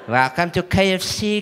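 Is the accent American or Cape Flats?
Cape Flats. It is spoken in a Cape Flats accent. "It's different when they go to KFC on the Cape Flats"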